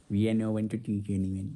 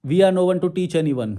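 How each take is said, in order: First: Much lower and softer, slow mocking echo; mocking repeat. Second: Slow, deliberate reading of the comment. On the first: Vlogger mocks a viewer's comment, low and scornful. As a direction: mutter it back like a sneer. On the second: Shown as a demonstration. Reading a viewer's comment aloud, slowly. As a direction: read each English word slowly out.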